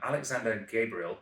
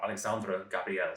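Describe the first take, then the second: First: The name is pronounced the English way. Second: The name is pronounced the French way. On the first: The speaker calls it wrong. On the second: The speaker calls it right.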